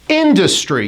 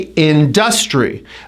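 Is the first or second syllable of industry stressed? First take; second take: first; second. First: The stress is on the first syllable. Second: The stress is on the second syllable. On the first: The speaker calls it right. "the first syllable should be stressed. You hit it high and you drop" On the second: The speaker calls it wrong. "many of my clients say this incorrectly"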